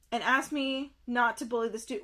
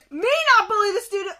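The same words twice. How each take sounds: First: Said in the usual way. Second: Loud, high, fast disbelief; outraged echo. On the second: Real, not acted. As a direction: throw the words back indignantly, rushing. Outraged echo of what was read.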